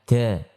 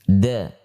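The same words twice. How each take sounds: First: The sound is made with a puff of breath. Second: The sound is made without a puff of breath. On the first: The speaker calls it wrong. "Tidak boleh kita ucapkan... Karena di situ ada hentakan nafas" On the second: The speaker calls it right. "huruf jahr"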